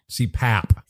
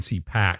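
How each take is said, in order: First: The word ends with a P sound. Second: The word ends with a K sound. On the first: The speaker calls it right. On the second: The speaker calls it wrong.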